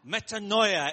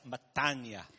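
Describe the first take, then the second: First: It is said with an 'o' sound: me-ta-no-i-a. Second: It is said without the 'o' sound: me-ta-ni-a. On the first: This is how Bible students say it. The speaker calls it wrong. "Metanoia is how the Bible student would pronounce it" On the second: This is how Greek people say it. The speaker calls it right. "But the Greek people pronounce it as metania"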